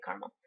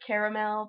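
First: Caramel said "car-mel" with two syllables. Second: Caramel said "care-a-mel" with three syllables. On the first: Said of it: "but I say caramel". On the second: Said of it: "I know it's caramel". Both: Shown as a demonstration.

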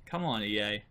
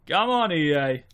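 First: "Come on, E A" said lower and softer, under his breath; quiet exasperated mutter; muttered complaint. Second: Exasperated outcry. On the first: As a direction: grumble it at the developers. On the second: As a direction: call the developers out openly. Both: Real, not acted. Complaining about the game.

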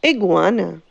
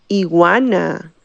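First: "Iguana" said the English way; English pronunciation. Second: "iguana" said the Spanish way; Spanish pronunciation. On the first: Teacher models the animal's name, English pronunciation of "Iguana". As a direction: say "Iguana" with a g before the w, English style. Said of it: "Suena casi igual en español que en inglés". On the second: Teacher gives the name in Spanish, Spanish pronunciation of "iguana". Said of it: "En español es". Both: Shown as a demonstration.

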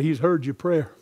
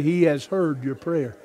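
First: Said in the usual way. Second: "He has heard" with "has" said in full; emphatic retake. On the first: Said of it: "No, you didn't tell him". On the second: Shown as a demonstration. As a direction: say "He has heard" deliberately, each word separate. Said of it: "Look him right in the eyes and say".

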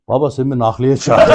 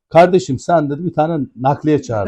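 First: Lightly imitated Ankara accent, low; Ankara şivesi. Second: Lightly imitated Istanbul accent; İstanbul şivesi. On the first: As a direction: retell it in a casual Ankara accent. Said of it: "şimdi ben Ankara şivesiyle dedim". (hafif Ankara şivesi taklidi) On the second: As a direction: mimic an Istanbul speaker, slowing at the end. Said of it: "bu İstanbul şivesiyle dedi ki bana". (hafif İstanbul şivesi taklidi)

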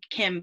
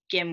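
First: Said in the usual way. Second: "Kim" said with a hard G, as Gim; G instead of K. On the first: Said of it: "but Kim with the G". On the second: Shown as a demonstration. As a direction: soften the first sound of "Kim" into a hard G. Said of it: "with the G".

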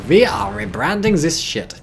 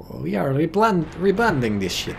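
First: Put-on botched Soviet voice in a German accent; slow, higher, emphatic German accent. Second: Higher-pitched, put-on Soviet accent; halting second try at a Russian accent; hammed-up attempt at a Soviet accent. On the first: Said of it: "That was the German accent". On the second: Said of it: "Sorry, I gotta fix that".

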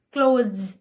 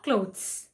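First: Clothes, final sound a buzzing z. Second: Clothes, final sound a hissing s. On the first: Teacher modelling Clothes with a z. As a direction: end Clothes on a clear z. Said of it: "it's a Z sound". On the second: Teacher showing the wrong clothes with s. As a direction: end clothes on an s. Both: Shown as a demonstration.

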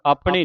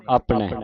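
First: ਆਪਣੇ with a narrow final vowel, nearly "apni"; wrong vowel ending. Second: ਆਪਣੇ with a wide final "ai", apnai; corrected open ending. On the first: Teacher shows congregation the reading to avoid, ਆਪਣੇ with closed ending. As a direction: close the end of ਆਪਣੇ tightly. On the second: Teacher corrects congregation's reading, ਆਪਣੇ with open ai ending. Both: Shown as a demonstration. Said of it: "ਆਪਣੇ ਨਹੀਂ ਪੜ੍ਹਨਾ".

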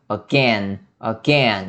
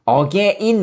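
First: Again said "uh-GEN", two syllables; weak first sound, lean on GEN in again; corrected pronunciation. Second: Again said "eo-ge-in", with an extra syllable; wrong pronunciation. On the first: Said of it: "이렇게". (again을 '어겐'으로, '겐'에 강세) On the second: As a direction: split again into Korean 어게인. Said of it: "again 말고요". (again을 '어게인'으로 또박또박) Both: Shown as a demonstration.

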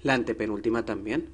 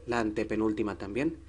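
The two takes are said the same way.

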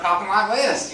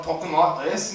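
First: Southern accent. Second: Lightly put-on English accent. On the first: Comic showing what the English accent turned into, Southern accent. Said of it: "it's developed from the English accent". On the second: Comic explaining how colonists first talked, English accent. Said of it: "the English people start coming over". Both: Shown as a demonstration.

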